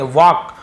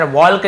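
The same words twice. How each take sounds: First: "वॉक" with long vowel straight into k; silent L. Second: "वॉल्क" with the l pronounced before k; mistaken sounded L. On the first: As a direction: say "वॉक" without any l. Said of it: "इसे वॉक पढ़ेंगे". ("वॉक" में ल चुप) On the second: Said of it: "वॉल्क नहीं पढ़ेंगे". ("वॉल्क" में ल बोलकर गलत उच्चारण) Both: Shown as a demonstration.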